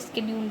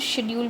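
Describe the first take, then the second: First: The word begins with an 'sk' sound. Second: The word begins with an 'sh' sound.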